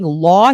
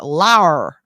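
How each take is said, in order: First: The word ends in a plain vowel, no R. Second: The word ends with an added R sound. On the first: "Instead of saying law" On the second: "He adds an R"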